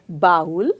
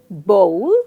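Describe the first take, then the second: First: The vowel does not rhyme with roll. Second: The vowel rhymes with roll. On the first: The speaker calls it wrong. "a lot of us say and pronounce it as bowl" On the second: The speaker calls it right. "Your O will be as in rock and roll"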